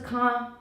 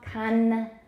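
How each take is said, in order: First: The final nasal is not a clear tongue-tip n. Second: The final nasal is a clear tongue-tip n. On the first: The speaker calls it wrong. "不是 con" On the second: The speaker calls it right. "音节尾的 n 记得舌尖要顶上去"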